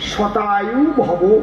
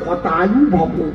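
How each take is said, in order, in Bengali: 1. প্রথম শব্দটি s ধ্বনি দিয়ে শুরু। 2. প্রথম শব্দটি h ধ্বনি দিয়ে শুরু। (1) "এর সংস্কৃত কি?" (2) "উনি কয় হতায়ু ভব"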